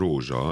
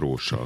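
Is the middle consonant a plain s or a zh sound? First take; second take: zh sound; plain s. First: The middle consonant is a voiced zh. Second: The middle consonant is a voiceless s. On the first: The speaker calls it right. "az S is zöngésedett" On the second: The speaker calls it wrong. "és nem rósa"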